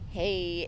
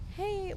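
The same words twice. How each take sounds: First: The greeting sounds creepy and ominous. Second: The greeting sounds friendly and casual.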